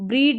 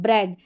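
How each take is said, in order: First: The vowel is a long ee sound. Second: The vowel is a short e sound. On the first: The speaker calls it wrong. "इसको ब्रीड नहीं" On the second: The speaker calls it right. "ए करके इसका sound आता है"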